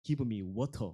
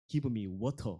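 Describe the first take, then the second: First: It is said with crisp Korean-style pronunciation. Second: It is said with crisp Korean-style pronunciation.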